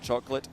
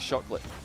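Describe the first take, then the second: First: The word begins with a 'ch' sound. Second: The word begins with an 'sh' sound. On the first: "There is no C H" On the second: "only S H"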